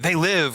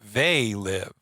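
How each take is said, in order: First: The stress falls on the word live. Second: The stress falls on the word they. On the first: It is an exclamation like a monster movie title. The speaker calls it wrong. "like we're saying it wrong" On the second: They are the ones living, not us. The speaker calls it right. "They're the ones who are living"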